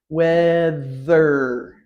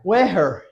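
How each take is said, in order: First: The middle consonant is a TH sound. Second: The middle consonant is an H sound. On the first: The speaker calls it right. "T H, two sounds together" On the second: The speaker calls it wrong. "Is that right? No, because there's no T sound"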